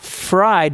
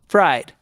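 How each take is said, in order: First: The F is long, with air pushed through. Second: The F is short, a quick lip flick. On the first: The speaker calls it wrong. "Not fried" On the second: The speaker calls it right. "but f- fried"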